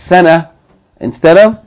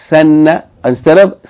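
Both takes have the same delivery.

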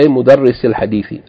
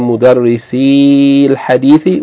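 First: The final vowel of mudarrisi is cut short. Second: The final vowel of mudarrisi is held long. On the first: The speaker calls it right. "as though it's a short vowel" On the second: The speaker calls it wrong. "we don't say"

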